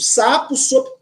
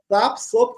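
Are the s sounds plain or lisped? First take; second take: plain; lisped. First: The s sounds are pronounced plainly. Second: The s sounds are pronounced with a lisp.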